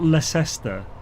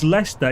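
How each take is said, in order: First: The middle 'ces' letters are pronounced. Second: The middle 'ces' letters are silent. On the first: The speaker calls it wrong. "It's not Leicester" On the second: The speaker calls it right. "But it's Leicester"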